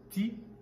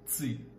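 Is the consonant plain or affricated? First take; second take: plain; affricated. First: The t is plain, with no hiss. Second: The t has a hissing sound added. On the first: This is the international French sound. "le son ti" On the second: This is the Quebec French sound. "devient ti"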